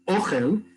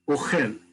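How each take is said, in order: First: The stress is on the first syllable. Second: The stress is on the second syllable. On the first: It means food. "the emphasis is on the first syllable" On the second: It means eats. "the emphasis is on the second syllable"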